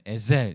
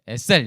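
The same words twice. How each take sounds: First: The middle consonant is voiced. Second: The middle consonant is voiceless. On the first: "약간 유성음이긴 해요. 에셀 이렇게 하면 더 좋은데" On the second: "우리나라 유성음 없잖아요. 그러니까 그냥 에, 에셀 이렇게 하겠습니다"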